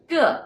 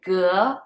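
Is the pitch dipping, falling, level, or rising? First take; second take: falling; rising. First: The pitch falls from high to low. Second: The pitch rises from middle to high. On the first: It means every. "The fourth one, ge, is every" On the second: It means square. "The second one, ge, is square"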